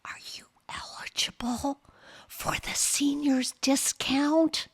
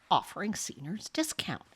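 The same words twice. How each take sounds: First: Whispering clerk. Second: Said in the usual way. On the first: Retold or imitated. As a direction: whisper it like it's embarrassing. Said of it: "in a whisper".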